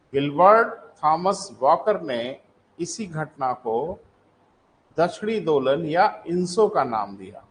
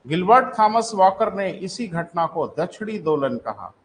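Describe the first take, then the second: First: Slow, phrase by phrase with pauses; slow dictation. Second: Said in the usual way. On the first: Shown as a demonstration. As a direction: dictate it for students writing it down. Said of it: "लिखें para change करके". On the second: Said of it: "लिखें".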